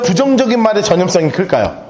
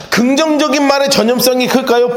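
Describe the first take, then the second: First: 부정적인 hit hard, lower, falling close; stress on 부정적인. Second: 긍정적인 pushed out as the key word; stress on 긍정적인. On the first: Preacher contrasting the two words, stress on 부정적인. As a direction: lean on 부정적인 and let it fall. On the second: Preacher asking the congregation, stress on 긍정적인. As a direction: lean on 긍정적인 in the question. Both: Shown as a demonstration.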